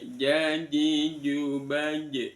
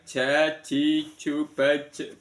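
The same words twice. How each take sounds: First: The J is made further back without hiss. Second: The J is made forward with an airy hiss. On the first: The speaker calls it right. "tapi jaji jubaj" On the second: The speaker calls it wrong. "bukan jaji jubaj, bukan seperti itu"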